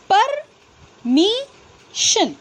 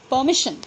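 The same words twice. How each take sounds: First: परमिशन drawn out slowly, syllable by syllable, higher; split into syllables. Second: Said in the usual way. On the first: Shown as a demonstration. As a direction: slowly sound out परमिशन in parts. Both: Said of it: "तो".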